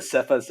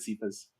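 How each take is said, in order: First: Cephas said SEF-us, short E; short E pronunciation. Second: Cephas said SEE-fus, long E; long E pronunciation. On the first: Guest tells host both ways they've heard it, Cephas as SEF-us. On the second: Guest tells host both ways they've heard it, Cephas as SEE-fus. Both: Shown as a demonstration. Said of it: "I've heard it both ways".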